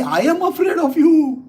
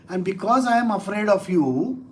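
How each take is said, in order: First: High, loud mock terror; feigned fear. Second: Said in the usual way. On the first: Lord mocking the great demon, feigned fear. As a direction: wail it as a teasing show of fright. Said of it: "It's a feigned way".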